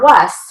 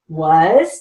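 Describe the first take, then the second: First: The word ends with a hissing s sound. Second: The word ends with a buzzing z sound. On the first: The speaker calls it wrong. "It's not was" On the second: The speaker calls it right. "W A Z"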